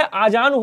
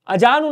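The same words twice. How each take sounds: First: आजानु with long opening aa; correct long vowel. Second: अजानु with short first a; wrong short vowel. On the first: Teacher correcting students, long start on आजानु. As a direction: stretch the first vowel of आजानु. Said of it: "होता है". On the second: Teacher showing students the error, short start on अजानु. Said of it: "नहीं होता है". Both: Shown as a demonstration.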